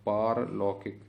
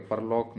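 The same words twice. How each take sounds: First: पारलौकिक with a long aa in पार; correct pronunciation. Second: परलौक with a short first vowel; wrong pronunciation. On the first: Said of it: "परलौक नहीं है कोई शब्द". (पारलौकिक में 'पा' लंबा) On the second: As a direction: say परलौक with a brief पर. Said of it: "नहीं है कोई शब्द". (परलौक में 'पर' छोटा) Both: Shown as a demonstration.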